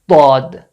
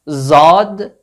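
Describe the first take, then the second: First: It starts with a heavy sound between D and Z. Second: It starts with a plain Z sound. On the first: The speaker calls it right. "Between these two letters" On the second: The speaker calls it wrong. "Not Zad"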